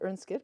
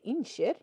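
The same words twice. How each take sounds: First: It is said in standard Norwegian. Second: It is said in a regional western dialect. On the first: "instead of" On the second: "In my horrible dialect"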